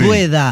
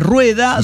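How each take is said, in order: First: The word begins with a D sound. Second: The word begins with a rolled R sound. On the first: The speaker calls it wrong. "la pronunciaba como si fuera una D" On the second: The speaker calls it right. "en lugar de rueda"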